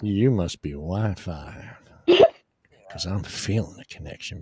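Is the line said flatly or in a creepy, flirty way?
creepy, flirty. The line is said in a creepy, flirty way.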